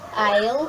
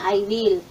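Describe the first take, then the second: First: It is said as one short contracted word. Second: It is said as two separate full words. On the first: "ginawa mong isang word na lang" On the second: "Yung two words"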